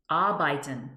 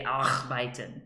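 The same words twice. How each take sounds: First: Arbeiten, R unspoken; German pronunciation. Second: Arbeiten with a rolled-in R, "arxbaiten"; wrong pronunciation. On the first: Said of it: "A R B E I T E N". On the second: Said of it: "You don't say arbeiten". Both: Shown as a demonstration.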